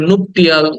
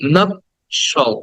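First: The middle has a clear t sound. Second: The middle has a sh sound. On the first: The speaker calls it wrong. "আমরা এটাকে নুপটিয়াল" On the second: The speaker calls it right. "Correct pronunciation should be নপশল"

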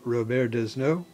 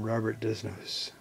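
First: The name is pronounced the French way. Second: The name is pronounced the English way.

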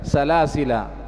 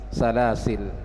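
First: The word ends with a long final vowel. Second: The word ends on the final consonant. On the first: "kita baca panjang dua harokat" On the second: "boleh dibaca pendek yaitu salasil"

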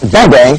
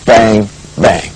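First: The two words are rushed together very quickly. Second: The two words are spaced far apart, slowly. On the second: "not a very slow"

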